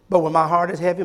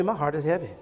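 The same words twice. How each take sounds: First: Said in the usual way. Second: Much softer and lower, heavy-hearted echo; softly repeated. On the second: Shown as a demonstration. Pastor to church, hushed heavy-hearted repeat. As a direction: let the repeat fall away quietly. Repeat dropped low and soft.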